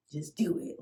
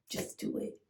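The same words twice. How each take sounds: First: Said in the usual way. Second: Breathy whisper of self-encouragement; soft whispered pep talk; whispered to herself. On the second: Retold or imitated. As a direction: whisper it to yourself to get brave.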